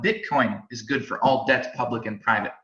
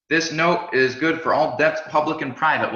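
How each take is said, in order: First: Said in the usual way. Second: Lightly raised, stately reading of the money's motto; mock official pronouncement. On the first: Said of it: "Well, guess what?". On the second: Teacher quoting the stamp on a dollar note, mock official. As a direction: intone it like a decree printed on a bill. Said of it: "somebody put a stamp on it and said".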